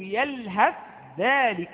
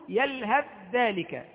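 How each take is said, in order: First: The th sound and dh sound are pronounced separately. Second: The th sound merges fully into the following dh. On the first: "سوف تنطق بالتاء وحدها وتنطق بالذال وحدها" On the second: "لا آتي بثاء مطلقا كأن الثاء غير موجودة، تأتي بعد الهاء ذال مباشرة"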